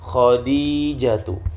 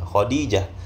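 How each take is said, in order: First: The name ends with a full tu syllable. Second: The name ends with a soft h sound. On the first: "tetap dibaca bagian huruf terakhirnya" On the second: "kita mau baca Khadijah pun tidak mengapa"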